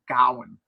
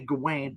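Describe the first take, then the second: First: The name ends with a 'wan' sound. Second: The name ends with a 'wain' sound. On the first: This is how the film says it. "but they say it Gowan" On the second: This is how the speakers usually say it. "We say Gawain"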